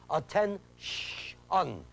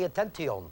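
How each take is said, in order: First: ATTEN-SH-UN broken slowly into three parts; isolated sh sound. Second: ATTENTION as atten-tee-on; hard second T. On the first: Teacher proving the sound, ATTEN-SH-UN with separated sh. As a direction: stretch out the SH in the middle of ATTEN-SH-UN. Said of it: "It's the sh sound". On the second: Teacher showing what not to say, ATTENTION with hard T. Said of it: "It is not a T sound". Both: Shown as a demonstration.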